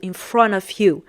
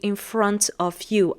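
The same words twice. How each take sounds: First: The words are linked and reduced together. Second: Each word is pronounced fully and separately. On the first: "it's like the let's say the American pronunciation" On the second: "I didn't say in front of you"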